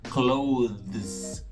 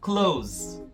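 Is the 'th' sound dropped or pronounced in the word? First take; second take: pronounced; dropped. First: The th sound is pronounced with tongue between teeth. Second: The th sound is dropped, sounding like s. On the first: This takes too much effort for everyday speech. "é muito movimento na boca para falar clothes" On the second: This is how it is said in everyday speech. "Então fica uma coisa como close"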